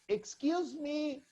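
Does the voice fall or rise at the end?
fall. The voice falls at the end. The speaker wants someone's attention. "if you want to call the attention of a person, just say"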